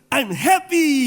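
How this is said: It is said with full, lively expression.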